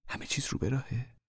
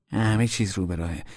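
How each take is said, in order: First: Higher anxious whisper, rising; whispered question. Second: Said in the usual way. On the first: Acted. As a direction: whisper the worry, ending up.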